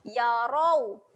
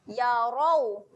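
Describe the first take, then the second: The two takes are said the same way.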